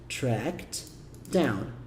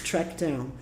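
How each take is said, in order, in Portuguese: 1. Falado devagar, com um t claro antes de down. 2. Falado ligado, com o t antes de down omitido. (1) "pausado é fácil" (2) "na prática você vai falar assim"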